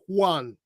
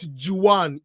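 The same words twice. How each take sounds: First: It begins without an English J sound. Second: It begins with an English J sound. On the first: The speaker calls it right. "J is not pronounced as J" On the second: The speaker calls it wrong. "it's not Juan"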